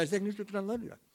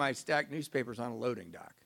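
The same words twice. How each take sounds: First: Blurted fast and higher, words running together; imitating an embarrassed, garbled quick answer; rushed mumble. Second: Said in the usual way. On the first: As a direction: race through it so it can barely be understood. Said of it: "I don't know what you just said".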